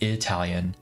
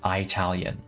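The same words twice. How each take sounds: First: The word is said in its usual pronunciation. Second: The word is said in an altered, mocking pronunciation. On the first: It is the ordinary name for the group. The speaker calls it right. "Instead of saying Italian" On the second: It deliberately marks the group as outsiders. The speaker calls it wrong. "my grandparents used to call it Italian"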